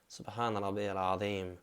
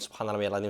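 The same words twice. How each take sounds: First: It is said slowly, with calm pauses. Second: It is said quickly, rushed together.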